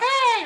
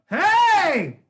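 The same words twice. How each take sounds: First: The shout is thin, not connected to the body. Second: The shout is supported, connected to the body.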